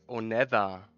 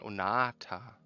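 First: The middle consonant is an English th sound. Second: The middle consonant is a plain t sound. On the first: The speaker calls it wrong. "sagt man ja auch nicht Onether" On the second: The speaker calls it right. "sondern Onata"

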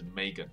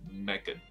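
First: The first vowel sounds like 'ay' in 'may'. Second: The first vowel sounds like 'eh' in 'meg'. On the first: The speaker calls it right. "他这里的发音就真的是Megan" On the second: The speaker calls it wrong. "而不是Megan 这样子"

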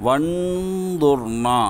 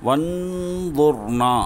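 No difference in how they are said.

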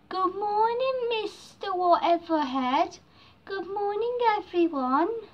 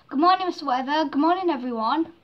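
First: It is said slowly, drawn out. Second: It is said quickly.

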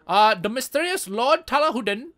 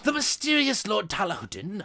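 First: It is read in a put-on, vaguely Indian accent. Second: It is read in the speaker's own plain voice. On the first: "weird-ass sort of Indian, but not really Indian accent" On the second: "I'm gonna just not do that voice"

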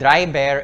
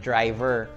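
First: It is said in a Filipino accent. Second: It is said in a non-Filipino accent.

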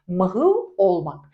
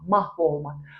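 First: A short vowel is heard between h and v. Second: No vowel is heard between h and v. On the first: "Mahıv olmak, yok olma anlamına geliyor" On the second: "I düşüyor, ünlü düşmesi var"

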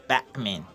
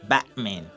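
No difference in how they are said.

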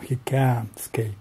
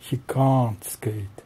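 First: It is said with an American accent. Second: It is said with a British accent. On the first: "Или в американском" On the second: "второй вариант сокращенный"

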